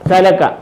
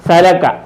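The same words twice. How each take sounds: No difference in how they are said.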